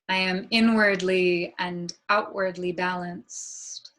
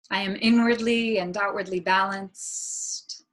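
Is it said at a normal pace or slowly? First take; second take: slowly; normal. First: It is said more slowly. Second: It is said at a normal pace.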